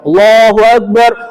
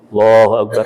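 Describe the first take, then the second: First: It is said loudly, at full volume. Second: It is said very softly, barely audible.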